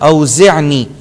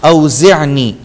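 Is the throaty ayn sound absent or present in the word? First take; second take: present; present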